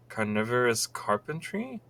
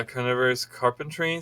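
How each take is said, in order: First: "Carnivorous carpentry" with a questioning rise at the end; puzzled question. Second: Said in the usual way. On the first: Real, not acted. Reader wondering what the title refers to, puzzled rise on "carpentry". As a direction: query "carpentry", tune lifting.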